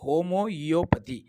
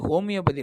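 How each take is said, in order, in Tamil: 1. சொல் 'homo-io' என்று தொடங்குகிறது, கூடுதலாக ஓர் அசையுடன். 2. சொல் 'homio' என்று தொடங்குகிறது, மூன்று தொடக்க அசைகளுடன். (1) "தேர்ச்சி பெற்ற மருத்துவர்கள் விஷயம் அறிந்தவர்களுக்கு தான் தெரியும்" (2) "பேச்சு வழக்கில் எல்லாருமே ஹோமியோபதி ஹோமியோபதினு சொல்ல ஆரம்பிச்சிட்டாங்க"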